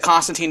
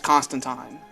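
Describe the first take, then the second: First: It is said with the American pronunciation. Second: It is said with the British pronunciation.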